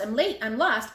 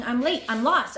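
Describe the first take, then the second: First: Yelling. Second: Louder first cry of late and lost; yelling. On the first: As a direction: call it again, slightly less loud. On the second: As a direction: call it out in a panic. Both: A narrator's reading. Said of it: "he was yelling".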